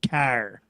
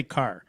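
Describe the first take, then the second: First: Car with a strong, in-your-face Michigan R; heavy Michigan accent. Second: Said in the usual way. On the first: Retold or imitated. Showing how Michiganders talk, car in heavy Michigan accent. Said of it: "somebody with a heavy Michigan accent". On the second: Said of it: "Ask them to say car".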